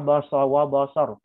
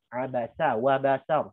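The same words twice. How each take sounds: First: The s in abasa is heavy, near sad. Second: The s in abasa is light and thin. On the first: The speaker calls it wrong. "Tapi sin yang dikit tebal. Jangan" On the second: The speaker calls it right. "seharusnya dibaca summa abasa wa basar"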